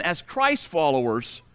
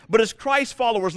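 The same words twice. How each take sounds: First: Slow, weighted repeat of Christ followers; deliberate slower restatement; emphasized again. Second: Said in the usual way. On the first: Shown as a demonstration. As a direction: lean on Christ followers the second time. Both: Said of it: "let me emphasize again".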